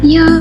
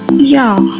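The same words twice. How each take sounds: First: It sounds light, amused and joking. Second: It sounds irritated and fed up. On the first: Come on, haha. "In a funny and light mood" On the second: Oh, come on.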